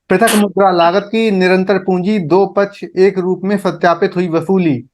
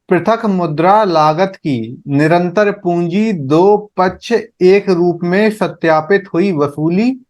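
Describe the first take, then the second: First: It is said quickly. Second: It is said at a slower pace.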